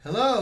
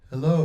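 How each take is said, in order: First: The voice sounds thin with boosted high tones. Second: The voice sounds boomy, low and muddy. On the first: "go to the high end and pump up the tweeter ... nothing but high frequency" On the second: "if I pump up the low end ... low and muddy"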